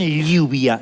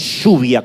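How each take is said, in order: First: It is said the Mexican way, with a y-like sound. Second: It is said the Argentine way, with a sh-like sound.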